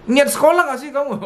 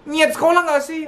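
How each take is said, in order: First: High accusing mock scold. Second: Much higher, accusing mock scold. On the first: Parent mocking a child's effort at school, high mock scold. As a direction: repeat the nag, sneering. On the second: Parent scolding a forgetful child, high mock scold. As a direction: ham up a nagging parent. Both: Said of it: "Yang gitu ada loh".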